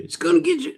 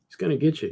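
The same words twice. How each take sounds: First: Mock menace in a high voice; high squeaky threat. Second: Said in the usual way. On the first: Teasing the viewers about the evil guy, high mock menace.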